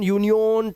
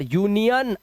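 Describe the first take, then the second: First: यूनियन ending in a long "-yone"; wrong pronunciation. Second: यूनियन ending in "-yun"; correct pronunciation. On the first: Teacher showing what to avoid, यूनियन with o. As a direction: say यूनियन as "yoo-ni-yoan". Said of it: "ओ नहीं करना है". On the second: Teacher modelling the rule, यूनियन ending in "-an". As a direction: say यूनियन with a short unstressed last vowel. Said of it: "अन". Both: Shown as a demonstration.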